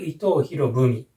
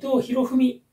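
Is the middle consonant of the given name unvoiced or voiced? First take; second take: voiced; unvoiced. First: The middle consonant is voiced, like bu. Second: The middle consonant is unvoiced, like fu. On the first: The speaker calls it right. "濁ってください" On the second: The speaker calls it wrong. "ではなく"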